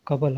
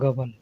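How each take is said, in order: First: The word begins with a k-like sound. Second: The word begins with a g sound. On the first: This is the original written form. "असल में कबल होता है, बड़ा काफ से लिखा जाता है" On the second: This is how people actually speak. "लेकिन बोलते लोग हैं गबल"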